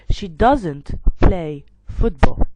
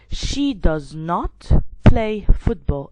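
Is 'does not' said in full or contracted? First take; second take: contracted; full. First: Does not is shortened into one word. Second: Does not is said as two full words. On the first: "it's going to be she doesn't play football" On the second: "instead of saying she does not play football"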